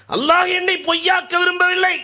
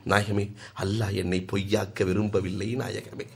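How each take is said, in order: First: Much higher, crying out through tears; tearful outcry. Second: Soft, choked tearful plea. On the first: Companion crying out to the Prophet, high and loud. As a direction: cry it out to the heavens. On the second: Companion pleading tearfully to the Prophet, soft and choked. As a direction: plead quietly through tears. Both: A narrator's reading. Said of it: "கண்ணீர் மல்க".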